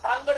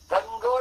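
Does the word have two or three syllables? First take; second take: two; three. First: The word has two syllables, with a long first vowel. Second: The word has three syllables, with short vowels. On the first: The speaker calls it right. "याचा उच्चार जो आहे तो आपण धांगड करतो" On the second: The speaker calls it wrong. "धनगड असं करतात"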